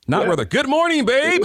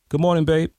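First: Spoken in a booming, put-on announcer voice. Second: Spoken in a relaxed, everyday conversational voice. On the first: It sounds like a performance for a broad audience. The speaker calls it wrong. "you go around talking like this" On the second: It sounds like talking to one real person. The speaker calls it right. "yeah, use that voice"

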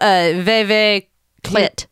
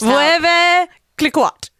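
First: The name is shortened, with syllables dropped. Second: Every syllable of the name is clearly pronounced. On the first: The speaker calls it right. "But it probably is" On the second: The speaker calls it wrong. "I'm trying to pronounce it like enunciate every syllable in it"

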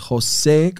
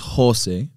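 First: The stress is on the second syllable. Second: The stress is on the first syllable. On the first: The speaker calls it right. "the accent mark's on the E" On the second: The speaker calls it wrong. "I thought it was Jose"

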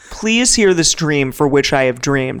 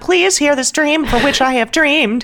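First: It is spoken in a plain adult voice. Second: It is spoken in a put-on young boy's voice. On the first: "that's too plain" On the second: "you can't do this whole voice the whole time"

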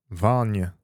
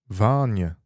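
First: The first vowel is fairly short. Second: The first vowel is fairly short.

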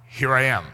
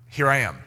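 Both takes have the same delivery.

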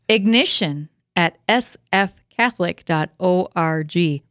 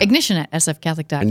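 First: It is said slowly. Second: It is said fast.

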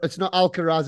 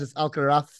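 First: The name is said with an English accent. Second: The name is said with a Spanish accent.

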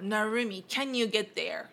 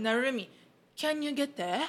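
First: It has an American accent with a strong final R. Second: It has a British accent ending in a breathy H.

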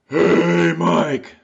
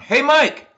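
First: A sharp gasping breath comes before the words. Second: It is a loud call with no gasp first.

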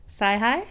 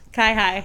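First: The first syllable starts with an S sound. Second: The first syllable starts with a K sound. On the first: The speaker calls it wrong. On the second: The speaker calls it right. "I would have never guessed the hard C"

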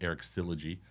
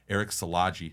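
First: The surname sounds like the start of 'syllogism'. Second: The surname does not sound like 'syllogism'. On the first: The speaker calls it wrong. "I've been calling him Eric Syllogy, like syllogisms" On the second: The speaker calls it right. "which I did not know was pronounced this way"

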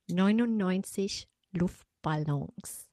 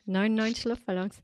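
First: The phrase is articulated clearly and carefully. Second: The phrase is articulated loosely and casually. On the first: The speaker calls it right. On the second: The speaker calls it wrong.

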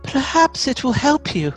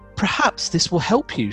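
First: It is said in a put-on mother's voice. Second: It is read in the narrator's normal voice.

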